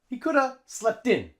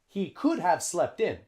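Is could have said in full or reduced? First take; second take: reduced; full. First: Could have is reduced to a single coulda. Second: Could have is said as two full words. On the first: The speaker calls it right. "Native English speakers would say" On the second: The speaker calls it wrong. "native English speakers wouldn't say"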